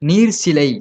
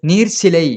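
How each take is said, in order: The two takes are said the same way.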